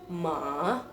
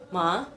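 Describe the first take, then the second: First: The pitch dips down, then rises. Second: The pitch rises upward. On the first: "ada penekanan ke bawah terus ke atas" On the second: "nadanya naik ke atas"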